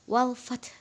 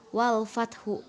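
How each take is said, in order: First: The word ends on a consonant with no vowel. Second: The word ends with an added u vowel. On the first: The speaker calls it right. "huruf terakhirnya itu dibaca lemah" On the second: The speaker calls it wrong.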